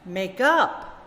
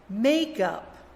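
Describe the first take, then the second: First: The stress is on the second part. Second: The stress is on the first part. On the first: It is used as a verb. "the opposite" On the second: It is used as a noun. "read the nouns with the stress on the first syllable"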